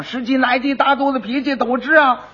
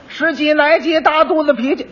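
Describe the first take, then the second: First: Higher sing-song cry of 十几来几大肚子脾气 at normal volume; lightly voiced hawker's call. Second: Higher sing-song cry of 十几来几大肚子脾气; lightly voiced hawker's call. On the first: Quack calls out in front of the butcher's shop. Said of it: "他这一吆喝". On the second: Quack advertises in the street, calling out 十几来几大肚子脾气. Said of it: "又嚷嚷上了".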